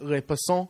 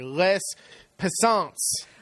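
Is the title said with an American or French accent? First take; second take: French; American. First: The title is said with a French accent. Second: The title is said with an American accent. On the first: "I think my French accent was pretty good on that" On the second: "if I was saying it in American French"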